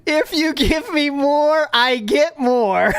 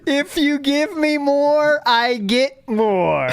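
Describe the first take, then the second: First: Slow, high, teasing sing-song; drawn-out and sly, rubbing it in; sing-song pitch. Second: Slower, drawn out, each word spelled out; slow repeat. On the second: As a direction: stretch it out as if to a child. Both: Shown as a demonstration. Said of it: "Get it?".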